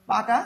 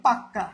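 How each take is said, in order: First: Said in the usual way. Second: পাক্কা with a long double k; emphatic doubled consonant. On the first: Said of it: "থেকে এটাকে জোর দিয়ে আমরা বলি". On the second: Shown as a demonstration. Teacher showing how stress doubles a consonant, পাক্কা with held kk. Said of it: "জোর দিয়ে আমরা বলি".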